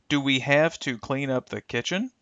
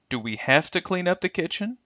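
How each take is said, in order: First: 'Have to' is said fully as two words. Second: 'Have to' is reduced and blended together. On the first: "This will become" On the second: "extreme reductions"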